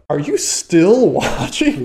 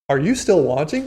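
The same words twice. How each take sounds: First: The tone is accusing and disapproving. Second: The tone is gentle and concerned. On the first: It implies you watch too much. "But this is like" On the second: They just want to check you didn't fall asleep. "I'm sure it's probably intended to be"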